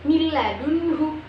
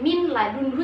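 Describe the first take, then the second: First: The n merges fully into a doubled l. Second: The n is pronounced clearly before the l. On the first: The speaker calls it right. "nun itu tidak terbaca, langsung kepada huruf lamnya" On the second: The speaker calls it wrong. "Tidak min ladunhu seperti yang awal"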